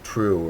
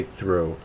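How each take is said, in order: First: "true" for through, th turned to a t. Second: "through" begun with a soft th sound. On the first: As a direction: say "true", starting on a hard t in place of th. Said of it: "if it would be like true". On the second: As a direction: say "through" with the usual th. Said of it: "I think they'd say through". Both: Shown as a demonstration.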